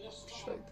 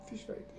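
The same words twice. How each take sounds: First: Said in the usual way. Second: Quiet. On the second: Real, not acted. Resigned, barely audible.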